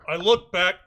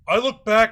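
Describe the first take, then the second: First: It is said in the speaker's natural voice. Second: It is said in a put-on imitating voice.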